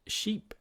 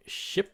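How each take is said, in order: First: Sheep with a long, high ee vowel; long E demo. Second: Ship with a short, clipped i vowel; short I demo. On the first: Teacher showing students the long E in Sheep. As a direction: hold the ee in Sheep long and lifted. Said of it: "so long E". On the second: Teacher showing students the short I in Ship. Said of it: "Short I với lại long E". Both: Shown as a demonstration.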